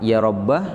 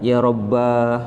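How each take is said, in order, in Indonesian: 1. Kata ini diakhiri dengan vokal a pendek. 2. Kata ini diakhiri dengan vokal a panjang. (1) "boleh dibaca fathah" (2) "atau dipanjangkan"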